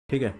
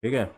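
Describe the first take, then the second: No difference in how they are said.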